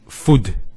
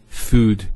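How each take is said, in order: First: The vowel is short and clipped. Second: The vowel is drawn out long. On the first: The speaker calls it wrong. "So we don't say food" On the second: The speaker calls it right. "So there's the elongation of the U sound"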